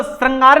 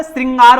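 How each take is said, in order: First: श्रृंगार said wrongly; श्रृंगार with the wrong shr; श्रृंगार mispronounced; wrong pronunciation. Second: श्रृंगार said right, as shringar; श्रृंगार with a clear shri; श्रृंगार pronounced shringar; correct pronunciation. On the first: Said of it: "वो श्रृंगार नहीं होता". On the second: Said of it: "श्रृंगार होता है". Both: Shown as a demonstration.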